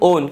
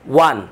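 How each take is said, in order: First: The vowel is a long 'oh' sound. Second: The vowel is a short 'uh' sound. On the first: The speaker calls it wrong. "আমরা সবসময় বলি উইন ওন ওন, কিন্তু আসলে আমরা যে প্রনাউন্সিয়েশনটা করি এই প্রনাউন্সিয়েশনটা একদম ভুল" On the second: The speaker calls it right. "এটার উচ্চারণ আমরা কি করব আজ থেকে ওয়ান"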